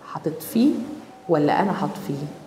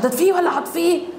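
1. يُقال ببطء وبنبرة أخفض. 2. يُقال بسرعة وبنبرة أعلى. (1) "الكلام لما بيبقى ابطا واوطى" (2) "مش"

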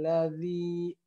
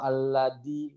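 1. Konsonan tengahnya adalah bunyi th yang lembut. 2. Konsonan tengahnya adalah d yang keras. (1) "ini huruf zal" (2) "atau aladi"

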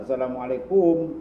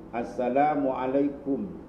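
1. Suku kata terakhir memiliki vokal yang berbeda. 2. Suku kata terakhir memiliki vokal u yang jelas. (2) "Maka bunyi ku"

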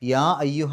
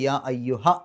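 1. അവസാന സ്വരം നീട്ടി ഉച്ചരിക്കുന്നു. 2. അവസാന സ്വരം ചെറുതാക്കി മുറിച്ച് ഉച്ചരിക്കുന്നു. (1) "യാ അയ്യുഹ എന്നുള്ള നീട്ടൽ" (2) "എന്നായി മാറും"

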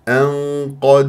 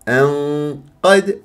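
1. القاف مفخمة بعد الغنة. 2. القاف مرققة بعد الغنة. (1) "جبت القاف مفخمة" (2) "غلط"

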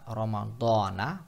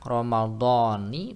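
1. Kata ini berakhir dengan vokal 'a'. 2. Kata ini berakhir dengan vokal 'i'. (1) "pakai fathah" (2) "pakai kasrah"

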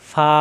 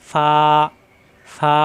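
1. স্বরধ্বনিটি হ্রস্ব রাখা হয়েছে। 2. স্বরধ্বনিটি টেনে দীর্ঘ করা হয়েছে। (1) "হরকত আসলে আর টান দেওয়া যাবে না" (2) "এখানে কিন্তু টান দেওয়া যাচ্ছে"

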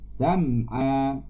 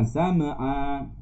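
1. Tidak ada vokal di antara m dan ayn. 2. Ada vokal yang ditambahkan di antara m dan ayn. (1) "sam'a bukan sama'a" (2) "bukan sama'a"

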